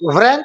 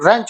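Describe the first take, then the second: First: The word starts with a v sound. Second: The word starts with an r sound. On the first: The speaker calls it wrong. "व्रेंच मत बोलना है इसको" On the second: The speaker calls it right. "व्रेंच नहीं, रेंच होता है"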